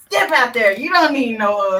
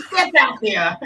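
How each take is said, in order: First: Louder, cheering "Step out there"; loud hype cheer. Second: Hype cheer. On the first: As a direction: call it out to the room. Hyping friend, louder repeat. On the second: Hyping friend to stand up. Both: Real, not acted.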